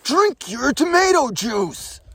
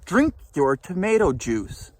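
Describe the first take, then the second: First: It is said in a louder voice. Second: It is said at a normal, quieter volume.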